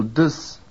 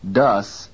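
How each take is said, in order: First: DUS with a weak schwa-like vowel; reduced vowel. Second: DUS with a clear full vowel. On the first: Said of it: "in a reduced form". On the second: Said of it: "pronounced with full quality". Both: Shown as a demonstration.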